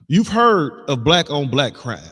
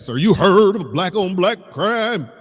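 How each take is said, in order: First: It is said in his normal speaking voice. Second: It is said in a put-on pastor's voice.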